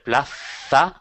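The z is pronounced like English th.

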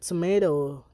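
It is said in an American accent. "America say tomato"

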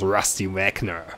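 Wagner is said the American way. The speaker calls it right.

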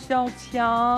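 It is said in a cute girlish voice.

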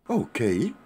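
The voice rises sharply at the end.

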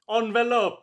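It is said in an Italian accent.

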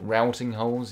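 Routing is said with an American pronunciation. "if you live in America"

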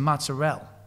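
The final vowel sound is dropped. It is the Italian-American way of saying it. "they drop the O off foods"

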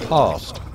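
It is said in a received English accent. "You would say past"

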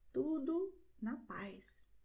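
It is said with a flat answering tune. Someone replies that all is well. "du reagierst mit"

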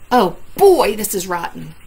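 It is said in an upset tone.

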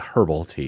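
It is said in the Australian way.

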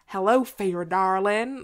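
It is said in a Southern American accent.

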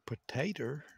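It is said with a rural Southern country accent. "I'm country like that. I say potato"

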